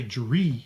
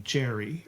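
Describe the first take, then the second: First: "Jerry" as juh-REE; mis-stressed "Jerry", weight on the final "ee"; stress on second syllable. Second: "Jerry" as JER-ee; stress on first syllable. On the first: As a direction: shrink the first syllable, hit the end of "Jerry". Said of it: "You don't say Jerry". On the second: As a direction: lean on the start of "Jerry". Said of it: "you stress the first syllable". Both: Shown as a demonstration.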